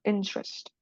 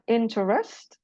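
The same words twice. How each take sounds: First: The middle vowel is dropped, two syllables. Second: The middle vowel is pronounced, three syllables. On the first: The speaker calls it right. "So this is called elision" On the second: The speaker calls it wrong.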